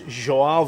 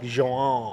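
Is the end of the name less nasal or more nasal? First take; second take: less nasal; more nasal. First: The ending is said with little nasal sound. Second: The ending is said with strong nasal sound.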